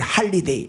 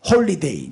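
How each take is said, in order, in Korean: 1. 첫 모음은 'ah'처럼 소리 나요. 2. 첫 모음은 'oh'처럼 소리 나요.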